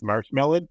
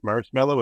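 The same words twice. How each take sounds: First: "marshmallow" said as marsh-melon, ending in an n; mispronounced marshmallow. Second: Said in the usual way. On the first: Retold or imitated. Showing co-hosts Spock's slip, mispronounced as marsh-melon. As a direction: swap the end of "marshmallow" for "melon". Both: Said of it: "Spock mispronounced marshmallow as marshmallow".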